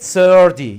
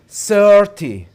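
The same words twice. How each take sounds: First: The middle t is a quick flap. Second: The middle t is a clear t sound.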